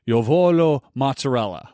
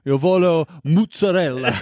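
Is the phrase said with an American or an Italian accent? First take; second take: American; Italian. First: It is said with a plain American accent. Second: It is said with an exaggerated Italian accent. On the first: The speaker calls it right. "even if I was learning Italian, I would say like" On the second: The speaker calls it wrong. "I couldn't bring myself to say"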